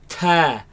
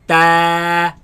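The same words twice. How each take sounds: First: The t bursts out with a strong puff. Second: The t is firm with no extra release. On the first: The speaker calls it wrong. "they spit it out like" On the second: The speaker calls it right. "place the tongue at the roots of the upper teeth"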